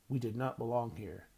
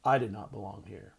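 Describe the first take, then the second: First: "we" hit hard, said through the teeth; "we" pushed out through clenched teeth, not "I"; stress on we. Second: "I" hit hard and pulled lower; "I" pressed through clenched teeth, not "we"; stress on I. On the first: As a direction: lean on "we", jaw tight. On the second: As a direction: lean on "I", the correction. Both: A narrator's reading. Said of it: "I said through my teeth".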